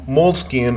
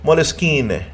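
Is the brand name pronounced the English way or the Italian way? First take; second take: English; Italian. First: The name is pronounced the English way. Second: The name is pronounced the Italian way. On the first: "Moleskine is the American or the English version of it" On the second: "if you go to Italy, they'll say Moleskine"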